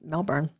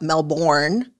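First: The name is pronounced the Australian way. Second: The name is pronounced a non-Australian way. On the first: The speaker calls it right. "it's pronounced the Australian way" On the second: The speaker calls it wrong. "it's not Melbourne"

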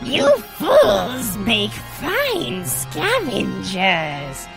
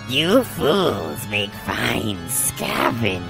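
First: It is said in a higher voice. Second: It is said in a deeper voice.

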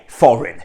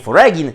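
First: Said with a silent g, like 'forin'. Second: Said with a hard g sound in the middle. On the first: The speaker calls it right. "wymówimy je foreign" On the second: The speaker calls it wrong. "Nie foregin"

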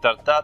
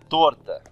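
First: The stress falls on the second syllable. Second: The stress falls on the first syllable. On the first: The speaker calls it wrong. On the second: The speaker calls it right.

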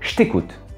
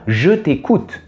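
First: The word 'je' shrinks to a short 'ch' sound. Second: The word 'je' is pronounced fully with its vowel. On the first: "Quand on prononce rapidement" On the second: "on ne dit pas je t'écoute"

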